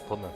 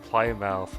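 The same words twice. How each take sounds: First: It is said with the British pronunciation. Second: It is said with an American's mispronunciation. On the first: The speaker calls it right. "I think that's how you pronounce it" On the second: The speaker calls it wrong. "she said like"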